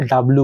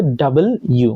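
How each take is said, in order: First: ডাব্লু run together as two-syllable "dab-lu"; common pronunciation. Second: ডাবল ইউ as separate "double" and "you"; corrected pronunciation. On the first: Teacher quoting the common habit, ডাব্লু merged as "dab-lu". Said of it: "এটাকে আমরা সাধারণত কি বলি?". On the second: Teacher correcting the letter's name, ডাবল ইউ as "double you". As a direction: split ডাবল ইউ clearly into two words. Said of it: "But এটা হবে". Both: Shown as a demonstration.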